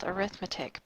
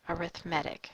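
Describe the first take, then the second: First: It is pronounced the way the noun is. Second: It is pronounced the way the adjective is. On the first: "This is spelled arithmetic" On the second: "since it is an adjective, ... it's pronounced arithmetic"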